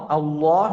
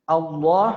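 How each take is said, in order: The two takes are said the same way.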